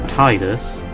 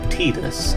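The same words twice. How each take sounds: First: The first syllable sounds like the word 'tide'. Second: The first syllable does not sound like 'tide'. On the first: The name links to the sea and tides. The speaker calls it right. "like, you know, the tide, just makes sense" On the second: This is the official pronunciation. The speaker calls it wrong. "canonically, it is supposed to be pronounced Tidus, and I just hate that"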